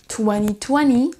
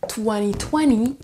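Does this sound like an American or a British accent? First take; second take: American; American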